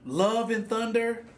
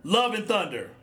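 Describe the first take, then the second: First: Slow, disbelieving echo of the title; incredulous repeat. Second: Said in the usual way. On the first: Acted. Podcast host scoffing at the Thor movie title, slow and incredulous. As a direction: drag it out like you can't believe it.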